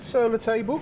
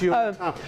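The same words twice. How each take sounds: First: It is said with a non-French, anglicized pronunciation. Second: It is said with a French pronunciation. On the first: The speaker calls it wrong. "her appalling pronunciation of French" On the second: The speaker calls it right. "No. It's sur la table"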